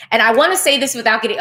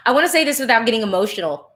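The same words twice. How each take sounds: First: Said in the usual way. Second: Fast, laughing it off while moved; laughing through emotion. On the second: Real, not acted. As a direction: push through the feeling with a laugh. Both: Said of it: "I'm already getting emotional".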